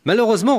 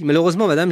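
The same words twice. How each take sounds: First: "Malheureusement" flung out high and loud, rising at the end; high rising exclamation. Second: "malheureusement, madame" loud, with a falling tune; loud falling restatement. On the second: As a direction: bring "malheureusement" back down, falling. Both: Retold or imitated. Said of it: "reprend la psy".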